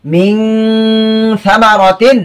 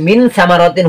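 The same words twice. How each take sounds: First: মিন held as a long "ming" hum before সামারাতিন; hidden n, ghunnah. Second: Said in the usual way. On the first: Shown as a demonstration. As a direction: recite মিন সামারাতিন slowly, humming the n. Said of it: "এখন শব্দগুলো আমি উচ্চারণ করবো". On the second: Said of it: "হবে না, কি হবে?".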